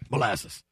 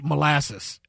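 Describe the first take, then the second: First: The word is said quickly and plainly. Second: The word is slowly drawn out. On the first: The speaker calls it wrong. "You can't just say molasses" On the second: The speaker calls it right. "it's got to take you all the way through"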